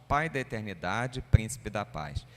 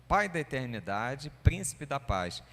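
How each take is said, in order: No difference in how they are said.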